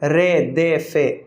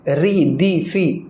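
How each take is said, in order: First: The vowels are 'ay' sounds. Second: The vowels are clear 'ee' sounds. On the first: The speaker calls it wrong. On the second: The speaker calls it right.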